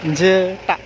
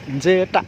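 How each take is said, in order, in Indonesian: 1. Diucapkan dengan lafal Jawa. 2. Diucapkan dengan lafal Jawa.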